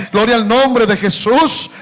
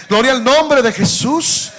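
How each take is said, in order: Both takes have the same delivery.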